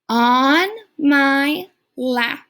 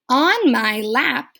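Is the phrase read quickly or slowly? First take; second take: slowly; quickly. First: It is read slowly and carefully. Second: It is read quickly and smoothly.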